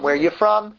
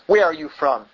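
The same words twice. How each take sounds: First: The question sounds friendly and welcoming. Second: The question sounds harsh and accusing. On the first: It is an ordinary polite greeting. "Isn't that a common thing to say?" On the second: The listeners are being treated with suspicion. "it could be the tone of voice... in an accusing way"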